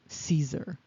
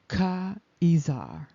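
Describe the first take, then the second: First: The name begins with an S sound. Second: The name begins with a K sound. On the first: This is the common form of the name. The speaker calls it wrong. "Caesar is not really Caesar" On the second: This is the original form of the name. The speaker calls it right. "It's really Ka'izar"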